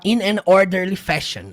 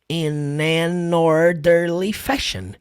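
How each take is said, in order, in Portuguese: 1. Cada palavra é dita separadamente, com pequenas pausas. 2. As palavras são ditas juntas, como se fossem uma palavra só. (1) "assim pausadamente" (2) "você vai falar tudo junto"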